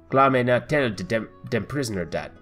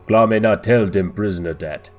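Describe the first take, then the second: First: It is said in a higher voice. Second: It is said in a deeper voice.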